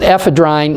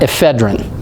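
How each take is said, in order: First: The last syllable has a long vowel. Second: The last syllable has a short vowel. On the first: The speaker calls it right. "you pronounce it ephedrine" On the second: The speaker calls it wrong. "not ephedrine"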